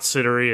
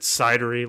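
First: The name does not sound like 'cider-y'. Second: The name sounds like 'cider-y'. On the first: The speaker calls it wrong. "it's not Sidery" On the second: The speaker calls it right. "like apple cidery"

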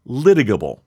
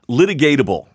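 First: The word is said without an extra syllable. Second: The word is said with an extra syllable. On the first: The speaker calls it right. "that's how I know how to pronounce litigable" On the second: The speaker calls it wrong. "which is not how you pronounce it. That's how I was pronouncing it"

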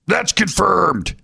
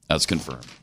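First: It is said in an imitated, put-on voice. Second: It is said in the speaker's normal voice.

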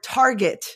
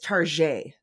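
First: It is said the plain English way. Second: It is said with a fake French sound. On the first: It names an ordinary store. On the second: It jokingly makes the store sound fancy.

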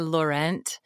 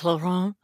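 First: The name is said in a plain everyday way. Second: The name is said with a French pronunciation. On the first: "I kind of say Laurent" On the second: "the fancy French way"

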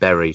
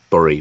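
First: The vowel sounds like the one in 'buried'. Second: The vowel sounds different from 'buried'. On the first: The speaker calls it right. "I'm really glad that you said buried" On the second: The speaker calls it wrong. "not the town of Bury"

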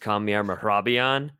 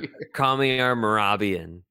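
First: The name has a Persian pronunciation. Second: The name has an English-sounding pronunciation.

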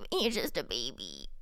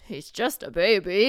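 First: It is said in a cutesy baby voice. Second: It is said in an ordinary adult voice. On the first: The speaker calls it wrong. "you cannot do baby voice with him" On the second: The speaker calls it right. "I'll do this"

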